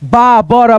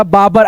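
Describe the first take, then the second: First: बाबर sounded out with a rising end; syllable by syllable. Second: Said in the usual way. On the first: Shown as a demonstration. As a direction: spell out बाबर slowly, ending up. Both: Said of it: "ऐसे करके पढ़ना है".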